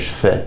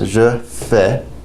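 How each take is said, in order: First: It is said fast, starting with a sh sound. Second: It is said slowly, starting with a zh sound. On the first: "When you pronounce this rapidly ... it kind of almost makes a, a sh sound" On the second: "slowly it's pronounced je fais"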